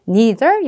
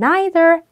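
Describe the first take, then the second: First: It is said in a non-British accent. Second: It is said in a British-Australian accent.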